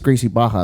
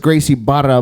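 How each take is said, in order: First: The middle consonant is an H sound. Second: The middle consonant is an R sound. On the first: This is how Brazilians say it. "that's just the way they pronounce it" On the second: This follows the spelling. "it has an R in it"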